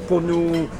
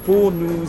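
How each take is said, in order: Both takes have the same delivery.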